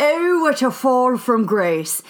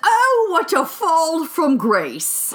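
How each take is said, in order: First: Put-on slow British documentary accent. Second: Put-on slow, posh-documentary British accent. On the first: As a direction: narrate it like a British host. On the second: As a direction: drawl it like a British narrator. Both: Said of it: "I get to do my British accent".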